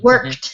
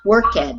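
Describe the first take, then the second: First: The word is said as one syllable. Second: The ending is said as a second syllable. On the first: The speaker calls it right. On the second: The speaker calls it wrong.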